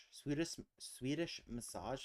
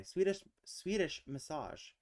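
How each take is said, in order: First: "Swedish, Swedish massage?" tried out with a rising, questioning tune; unsure guess. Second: "Swedish, Swedish massage." said louder and higher with a firm falling close; confirmed answer. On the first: Checking whether the puzzle answer exists: tentative rising question. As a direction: test the phrase "Swedish massage?" like a doubtful guess. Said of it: "Is that a thing?". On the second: After the guess is confirmed: pleased, emphatic statement. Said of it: "It is". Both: Real, not acted.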